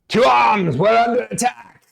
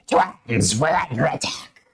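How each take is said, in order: First: Shrieking warrior cry, high and loud; high shrill alarm call. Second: Screechy voice. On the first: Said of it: "she's like". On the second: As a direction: redo it as Screechy. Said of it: "she would say it more like Screechy". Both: Acted.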